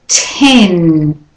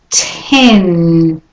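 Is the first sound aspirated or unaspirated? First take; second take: aspirated; aspirated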